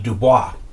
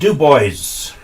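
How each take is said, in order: First: The name is said the usual way. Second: The name is said the local way. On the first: This is how the spelling would normally be read. "which normally would be Dubois" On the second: This is how the local people say it. "but they pronounce it Dubois"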